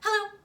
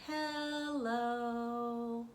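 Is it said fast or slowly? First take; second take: fast; slowly. First: It is said fast. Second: It is said slowly.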